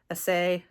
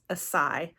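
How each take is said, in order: First: The c is said with an S sound. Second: The same.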